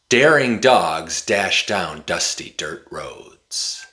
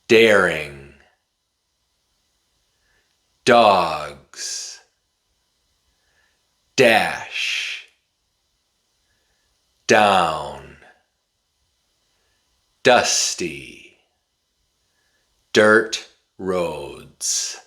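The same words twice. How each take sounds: First: It is said very quickly without breaks. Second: It is said slowly, word by word.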